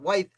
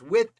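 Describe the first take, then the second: First: It has a long vowel like 'wide'. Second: It sounds like the word 'with'. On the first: The speaker calls it wrong. "and not Wythe" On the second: The speaker calls it right. "whose name I understand is pronounced With"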